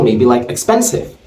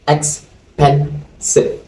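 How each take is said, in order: First: Said in the usual way. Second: Expensive drawn out, each syllable separated slowly; slow syllable count. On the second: Shown as a demonstration. Teacher slowly spelling out Expensive syllable by syllable for students. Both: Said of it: "Expensive has how many syllables?".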